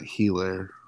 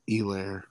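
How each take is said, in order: First: The name starts with an H sound. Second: The name starts without an H sound. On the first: The speaker calls it wrong. "not Helaire" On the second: The speaker calls it right. "the H is silent. It's Helaire"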